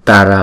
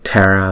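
First: The first t is plain, without a puff. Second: The first t is breathy, like th. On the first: The speaker calls it right. "chữ Tara là đúng" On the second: The speaker calls it wrong. "còn Tara là không đúng"

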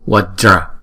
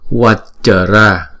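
First: The word is said as two syllables. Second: The word is split into three syllables. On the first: The speaker calls it right. "Chữ J này đọc là dra" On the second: The speaker calls it wrong. "thì không đúng, tại vì nó thành ba âm rồi"

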